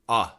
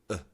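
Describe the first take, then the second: First: The vowel is longer, with an open jaw. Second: The vowel is shorter, with a still jaw. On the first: "The short U ... You actually need to drop your jaw" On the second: "The schwa sound, you don't move your jaw"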